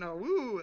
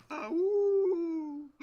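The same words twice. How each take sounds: First: Coyote call. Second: High, loud howling call; coyote call. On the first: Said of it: "and I'm shouting". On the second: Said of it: "I'm gonna go". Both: Pretend.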